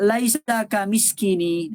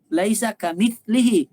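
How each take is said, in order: First: The second word is said as 'kamiskini'. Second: The second word is said as 'kamitslihi'. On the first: The speaker calls it wrong. "Dia kata laisa kamiskini" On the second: The speaker calls it right. "Bukan kamiskini"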